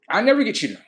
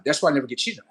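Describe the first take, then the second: First: "never" said higher and louder, falling; stress on never. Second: Said in the usual way. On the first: Shown as a demonstration.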